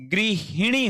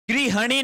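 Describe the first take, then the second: First: गृहिणी said "gri-hi-ni", hi in the middle; correct pronunciation model. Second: गृहिणी said "gri-ha-ni", ha for hi; higher, with an a in the middle of गृहिणी; wrong pronunciation demo. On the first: Teacher giving students the right word, गृहिणी as "grihini". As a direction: clear short i after h in गृहिणी. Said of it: "गृहिणी होता है". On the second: Teacher rejecting a misspelling, गृहिणी as "grihani". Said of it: "गृहिणी नहीं होता है". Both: Shown as a demonstration.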